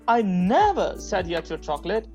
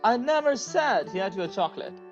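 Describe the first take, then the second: First: The stress is on the word never. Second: The stress is on the word said.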